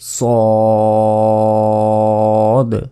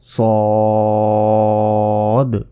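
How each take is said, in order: The two takes are said the same way.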